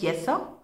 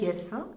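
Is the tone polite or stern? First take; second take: stern; polite. First: It is said in a sharp, stern tone. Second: It is said in a plain, polite tone.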